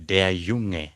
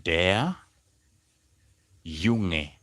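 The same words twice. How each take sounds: First: Said in the usual way. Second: "der", long pause, then "Junge"; word by word. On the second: Shown as a demonstration. Teacher showing how to say the boy, word by word. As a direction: separate "der" and "Junge" for learners. You simply say.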